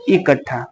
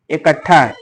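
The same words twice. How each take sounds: First: इकट्ठा with a clear short i, ikaṭṭhā; इकट्ठा spoken with an i opening and a drawn-out final ā; short i first vowel. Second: इकट्ठा with the first vowel near e, ekaṭṭhā; इकट्ठा spoken with an e-like opening vowel and a held ṭṭh. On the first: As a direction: say इकट्ठा as ikaṭṭhā, ending on a long ā. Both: Shown as a demonstration. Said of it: "ऐसे बोल देते हैं".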